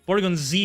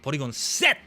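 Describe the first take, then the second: First: The final letter is said as a short 'zee'. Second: The final letter is said as a longer 'zetto'. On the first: "is probably how you say it" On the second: "That just seems right, right? Like Mashinga Seto"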